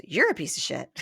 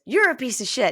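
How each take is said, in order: First: Lower, amused parroting; mocking echo. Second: Loud accusing mock outrage; acted insult. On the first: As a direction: hand the insult straight back, nearly laughing. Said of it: "It's all he does is repeat it back". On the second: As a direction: hurl it as the angry girlfriend. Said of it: "And then she says".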